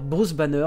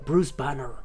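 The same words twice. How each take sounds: First: It is said with a French accent. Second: It is said with an American accent. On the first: The speaker calls it right. "Au lieu de vous dire" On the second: The speaker calls it wrong. "avec l'accent"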